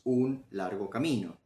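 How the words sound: Short breaks fall between the three words. "podemos dividir esta frase en tres palabras"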